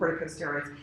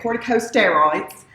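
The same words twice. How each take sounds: First: It is said in the speaker's own American accent. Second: It is said in a Texan accent.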